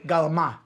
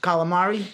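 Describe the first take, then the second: First: The word is clipped, starting with g. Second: The word is said in full, starting with k. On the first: "in Brooklyn, ... they say galama" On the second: "it's calamari"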